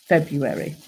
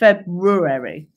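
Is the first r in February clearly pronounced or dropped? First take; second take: dropped; clearly pronounced. First: It is said casually, the first r dropped. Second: Every letter is sounded, including the first r.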